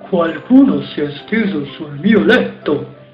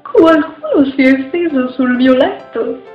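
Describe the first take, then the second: First: It is said in a big, deep voice. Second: It is said in a medium-sized voice.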